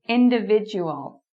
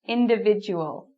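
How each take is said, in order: No difference in how they are said.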